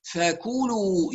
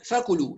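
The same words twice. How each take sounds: First: "فكلوا" slowly with complete u vowels, "fakuuluu"; full vowels. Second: "فكلوا" with vowels cut short, "fakulu"; clipped vowels. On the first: Teacher models for students, full rounded vowels. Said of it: "وإتمام الضمات". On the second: Teacher shows students the mistake, shortened vowels. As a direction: rush the long vowels of "فكلوا". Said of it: "لا نخترس". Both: Shown as a demonstration.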